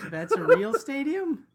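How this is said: The voice rises at the end like a question. It asks whether the stadium is real.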